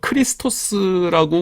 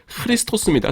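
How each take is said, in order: First: It begins with a plain hard k sound. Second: It begins with a raspy, breathy h-like sound. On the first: The speaker calls it wrong. "우리말로 이렇게 쓸 수밖에 없는데" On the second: The speaker calls it right. "사실은"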